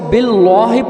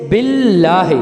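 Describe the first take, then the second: First: The 'l' sound is full and heavy. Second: The 'l' sound is thin and light. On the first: The speaker calls it wrong. "अगर हम इसको बिल्लाह पढ़ेंगे तो ये" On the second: The speaker calls it right. "इसको हम हल्का पढ़ेंगे, जैसे बिल्लाह"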